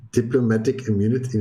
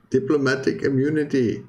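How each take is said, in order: First: Put-on a barely-there South African accent that collapses; failed South African accent. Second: A hammed-up South African accent, pitched higher. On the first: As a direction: try the South African accent and let it fall flat. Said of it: "I keep having this urge to say diplomatic immunity in a South African accent". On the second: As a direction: commit to the South African accent this time, playful and lifted. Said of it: "I can say some things in a bit of a South African accent".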